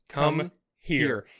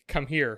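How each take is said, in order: First: Each word is clipped with a pause between. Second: The two words run together without a pause. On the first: The listener is in even worse trouble. "if she punctuates every word" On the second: The listener is in trouble. "come here, period"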